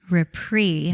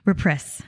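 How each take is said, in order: First: The final S is not pronounced. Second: The final S is pronounced. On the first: The speaker calls it right. "there's an S on the end, but you don't say it" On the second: The speaker calls it wrong. "we hear it all of the time"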